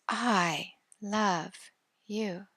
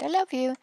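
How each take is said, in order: First: It is said with deep, heartfelt feeling. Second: It is said casually, without feeling.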